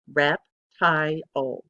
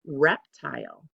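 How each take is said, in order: First: Reptile drawn out very slowly, each beat separate; slow syllables. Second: Said in the usual way. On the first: Shown as a demonstration. Teacher slowly sounding out reptile for the class. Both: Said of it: "That actually has three syllables".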